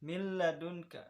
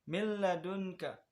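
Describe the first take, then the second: The two takes are said the same way.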